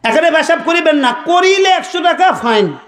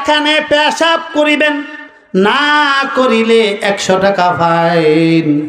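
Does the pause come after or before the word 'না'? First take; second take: after; before. First: The pause comes right after 'না'. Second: The pause comes right before 'না'.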